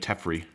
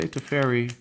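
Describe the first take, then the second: First: It sounds like Jeffrey starting with T. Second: It does not sound like Jeffrey with T. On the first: "like Jeffrey, but with a T" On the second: "I say Teferi because of my accent"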